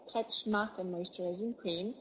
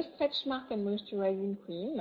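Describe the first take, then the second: First: Slow, careful English accent on the product name. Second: Product name in a light English accent. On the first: Presenter repeating the cream's name for viewers, slow English accent. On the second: Presenter naming a cream for viewers, in a light English accent. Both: Shown as a demonstration. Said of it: "j'ai dit avec mon accent anglais".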